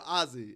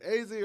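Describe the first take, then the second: First: The name is said like the first name Ozzy. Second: The name is said like the letters A, Z. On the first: "you said Ozzy like the first name" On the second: "is it A Z or Ozzy?"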